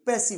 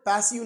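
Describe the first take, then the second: First: It is said the way native English speakers say it. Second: It is said in an old bookish reading style. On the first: This is how the English actually say it. The speaker calls it right. "पैसिव है" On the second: This is how learners read it from books. The speaker calls it wrong. "ये word पैसिव नहीं"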